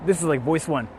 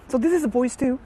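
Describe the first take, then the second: First: Said in the usual way. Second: Much higher, lighter put-on voice; high girly voice two. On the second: Shown as a demonstration. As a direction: lift the voice way up into a cutesy register.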